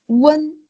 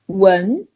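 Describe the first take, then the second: First: The syllable is said in the first tone. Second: The syllable is said in the second tone. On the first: "It's the first one" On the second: "second one"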